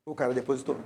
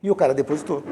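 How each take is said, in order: First: Softer, with stress on "cara"; hushed repeat. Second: Said in the usual way. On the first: Shown as a demonstration. Preacher repeats to the congregation in hushed wonder. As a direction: let "O cara depositou" sink in quietly.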